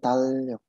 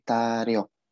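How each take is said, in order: First: The middle consonant sounds like an L. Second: The middle consonant sounds like an R. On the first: The speaker calls it wrong. "Bukan talyok" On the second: The speaker calls it right. "tapi taryok... R-nya jadi naik ke atas"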